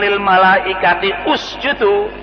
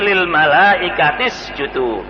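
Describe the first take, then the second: First: The u of usjudu is pronounced separately. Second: The words are linked, dropping the u sound. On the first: The speaker calls it wrong. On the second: The speaker calls it right. "tapi ... Ini sistem bacaan menurut tajwid"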